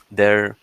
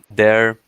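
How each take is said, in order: Both takes have the same delivery.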